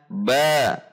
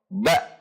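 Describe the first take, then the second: First: The vowel ends openly without a catch. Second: The vowel ends with an abrupt throat catch. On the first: The speaker calls it right. "Tetapi dibaca" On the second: The speaker calls it wrong. "tidak menambahkan akhiran hamzah"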